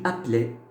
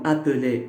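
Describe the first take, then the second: First: The middle e vowel is dropped. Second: The middle e vowel is pronounced. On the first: "Soit je ne le prononce pas et je dis appeler" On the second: "Soit je le prononce comme appeler"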